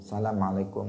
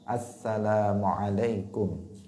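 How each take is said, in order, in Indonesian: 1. Bunyi 'al' dihilangkan sebelum 'salam'. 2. Bunyi 'al' diucapkan sebelum 'salam'. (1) "Tidak boleh" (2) "Harus ada alnya dalam assalam"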